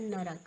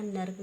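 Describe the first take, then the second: First: नरक with three clear syllables; correct full form. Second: नर्क clipped short; wrong half letter. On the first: Teacher giving the correct नरक, three syllables. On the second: Teacher showing the wrong नर्क, clipped. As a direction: say नर्क quickly as two beats. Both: Shown as a demonstration. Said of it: "ये हमारा होता है नरक".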